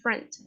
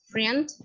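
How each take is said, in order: First: The vowel sounds close to a Spanish e. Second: The vowel sounds like an i, read from spelling. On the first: The speaker calls it right. "sino friend" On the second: The speaker calls it wrong. "No es friend"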